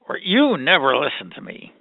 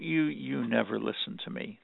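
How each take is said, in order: First: It is said with higher energy. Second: It is said with low energy.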